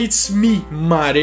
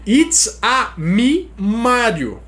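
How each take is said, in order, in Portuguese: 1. It's termina sem vogal extra. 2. Uma vogal extra vem depois de It's. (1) "ele não fala It's me, Mario" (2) "uma inflexão ... pra dar aquele sotaque italiano"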